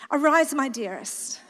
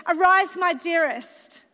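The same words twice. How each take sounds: First: "Arise, my dearest" read lower and poetic, with a laugh; lower, dreamy poetic read of "Arise, my dearest". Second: Said in the usual way. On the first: Shown as a demonstration. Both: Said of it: "I need to read it, like, poetic".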